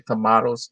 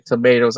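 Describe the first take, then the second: First: "tomatoes" said as to-MAH-toes; broad-A pronunciation. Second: "tomatoes" said as to-MAY-toes; long-A pronunciation. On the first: Co-host contrasts his way with yours, "tomatoes" said to-MAH-toes. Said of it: "I say tomatoes". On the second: Co-host contrasts your way with his, "tomatoes" said to-MAY-toes. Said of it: "you say tomatoes". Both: Shown as a demonstration.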